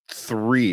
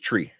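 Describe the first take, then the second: First: The word begins with a 'th' sound. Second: The word begins with a plain 't' sound. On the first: "I never say three" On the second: "It's always tree"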